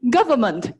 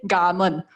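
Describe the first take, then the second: First: The v sound in government is pronounced. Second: The v sound in government is dropped. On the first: "So like government" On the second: "the V sound, sometimes you can just omit"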